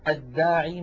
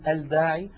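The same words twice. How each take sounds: First: The l merges into a doubled d sound. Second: The l is pronounced clearly before d. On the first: The speaker calls it right. "مثلا" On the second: The speaker calls it wrong. "ولا نقول الداعي"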